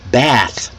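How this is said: The vowel is a short, flat A. "Americans pronounce the word bath with a short A sound"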